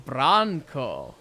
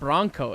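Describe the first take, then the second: First: The name has a different first vowel. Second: The name sounds like the truck name. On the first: This is the person's real name. The speaker calls it right. "B R A N K O" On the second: The name was misheard or assumed. The speaker calls it wrong. "not Bronco, like the truck"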